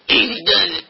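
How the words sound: It is said in an imitated older man's voice.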